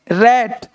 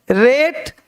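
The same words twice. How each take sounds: First: रैट with a wide "ae"; रैट with the open vowel. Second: रेट with a held "ay"; slow रेट with the closed vowel; long "ay" vowel. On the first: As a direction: say रैट as "rat". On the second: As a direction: say रेट as "rayt". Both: Shown as a demonstration. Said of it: "वहाँ ए और यहाँ ए".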